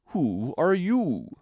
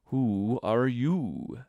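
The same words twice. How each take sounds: First: Very slow, raised, scornful drawl; contemptuous. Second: Very slow, drawn-out drowsy drawl; languid, sleepy. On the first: Caterpillar dismissing Alice's opinion, contemptuous. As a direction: stretch it out high and loud with disdain. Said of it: "said the caterpillar contemptuously". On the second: Caterpillar first addressing Alice, languid and sleepy. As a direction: stretch each word out lazily. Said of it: "languid, sleepy voice". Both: A narrator's reading.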